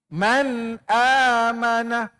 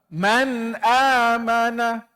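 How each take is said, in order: No difference in how they are said.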